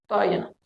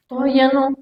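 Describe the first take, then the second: First: "todavía no" repeated much softer, trailing off; "todavía no" murmured softly to herself. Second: Said in the usual way. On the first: Shown as a demonstration. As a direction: drop the second "todavía no" to a soft aside.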